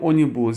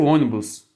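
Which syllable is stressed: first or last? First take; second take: last; first. First: The stress is on the last syllable. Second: The stress is on the first syllable. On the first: The speaker calls it wrong. "Só que eu não quero ônibus" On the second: The speaker calls it right. "eu quero ônibus. Aí eu tenho um acento aqui"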